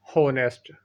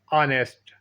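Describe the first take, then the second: First: Honest with a spoken h and an o vowel, "honest"; honest as ho-nest, h pronounced; wrong pronunciation. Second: Honest with a silent h, "anest"; honest starting on the vowel, h dropped; correct pronunciation. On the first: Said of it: "गलत pronunciation है". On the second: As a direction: say honest as a-nest, no h. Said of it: "correct pronunciation". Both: Shown as a demonstration.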